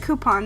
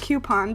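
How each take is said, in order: First: The first syllable sounds like 'koo'. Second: The first syllable sounds like 'kyoo'. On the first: The speaker calls it right. "I say coupon" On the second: The speaker calls it wrong. "not coupon, because the U isn't before the O"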